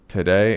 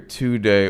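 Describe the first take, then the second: First: The first syllable is reduced to a weak 'tuh'. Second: The first syllable is said as a full 'too'. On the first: The speaker calls it right. "it's today" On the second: The speaker calls it wrong. "So you don't hear today"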